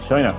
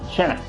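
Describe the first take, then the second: First: The word is said in a plain voice. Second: The word is said in an imitated voice.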